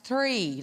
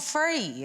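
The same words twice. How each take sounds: First: "three" with a proper TH, slowly; careful TH at the start of "three", drawn out; well-spoken TH. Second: "free" for three, drawn out with an F. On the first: Son correcting mum's accent, a clear slow TH in "three". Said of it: "he's a little bit more well-spoken than me". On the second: Son mocking mum's way of saying three, F for TH. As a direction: stretch "free", starting on F instead of TH. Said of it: "It's not free, it's, like, three". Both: Retold or imitated.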